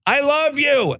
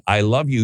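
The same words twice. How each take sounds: First: High, ringing call of I love you; yelling I love you. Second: Said in the usual way. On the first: Acted. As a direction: fling it out while running off a pier.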